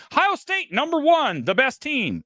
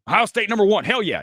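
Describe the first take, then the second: First: High, hammered-out hype delivery; oversold line. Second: Said in the usual way. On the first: Shown as a demonstration. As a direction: sell it hard, the opposite of casual. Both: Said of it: "That's not throwing it away".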